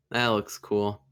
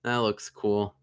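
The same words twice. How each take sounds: The two takes are said the same way.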